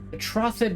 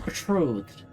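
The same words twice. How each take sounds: First: The O is said as a short vowel. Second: The O is said as a long vowel. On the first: The speaker calls it wrong. "just doesn't sound right" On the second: The speaker calls it right. "Like a long O"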